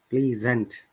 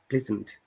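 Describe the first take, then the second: First: The first vowel is pronounced fully. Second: The first vowel is short and reduced. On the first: The speaker calls it wrong. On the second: The speaker calls it right. "we are not pronouncing it totally"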